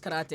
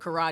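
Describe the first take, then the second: First: It is pronounced with a Japanese-style pronunciation. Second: It is pronounced with an American pronunciation. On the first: This is the way it is properly said. "even though I know it's" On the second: This is the habitual local way of saying it. "it's an American habit of me to still call it"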